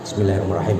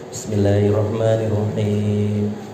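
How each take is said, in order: First: It is recited quickly and hurriedly. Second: It is recited slowly and carefully. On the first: The prayer is rushed to get back to worldly affairs. The speaker calls it wrong. "masih bacaannya cepat" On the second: The prayer is said as a calm dialogue with God. The speaker calls it right. "baca Fatihahnya yang benar"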